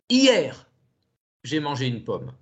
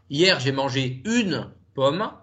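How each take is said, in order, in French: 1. Le mot "hier" est accentué. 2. Le mot "une" est accentué. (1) "d'accentuer le mot hier" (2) "si j'accentue le mot une"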